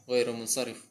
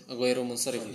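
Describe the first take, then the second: No difference in how they are said.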